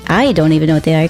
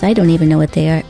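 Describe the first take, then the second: First: The word 'I' is stressed. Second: The word 'I' is not stressed. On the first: "Like, I" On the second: "I didn't even put the emphasis on I"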